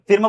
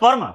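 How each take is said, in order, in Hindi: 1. स्वर छोटी 'i' ध्वनि है। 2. स्वर 'er' ध्वनि है। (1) "फिर में बोलते हैं क्या" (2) "ऐसे बोलते हैं ना फर्म"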